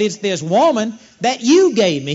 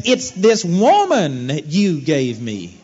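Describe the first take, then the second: First: Louder, accusing retelling; louder, emphatic finger-pointing; pointed blame. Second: Slow, drawn-out, sulky blame; slow, drawn-out whine passing the buck; whiny Adam excuse. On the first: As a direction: push the blame hard onto her. Adam blaming Eve again. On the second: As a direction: drag it out like a sulking man making excuses. Adam blaming God's gift of Eve. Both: Retold or imitated.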